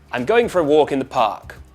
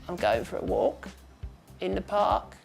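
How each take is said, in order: First: It is loud, lively, with much pitch movement. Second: It is quiet, breathy and creaky, fairly flat.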